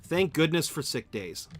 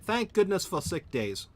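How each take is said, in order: First: Said in the usual way. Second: Higher-pitched attempt at an English accent; bad English accent. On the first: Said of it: "would it be better if I said". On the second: Shown as a demonstration. Streamer retrying a line about sick days, bad English accent. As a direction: say it in a badly faked English accent. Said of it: "I am so bad at that".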